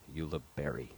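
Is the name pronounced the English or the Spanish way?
English. The name is said with English pronunciation. "the English pronunciation"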